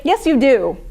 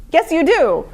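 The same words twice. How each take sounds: First: Said in the usual way. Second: "do" pushed higher for emphasis; stress on do. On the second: Shown as a demonstration. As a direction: lean hard on "do".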